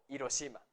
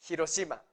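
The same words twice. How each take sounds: First: It begins directly with the vowel, no h. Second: It begins with an audible h sound. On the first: The speaker calls it wrong. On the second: The speaker calls it right. "La H no es muda en el japonés"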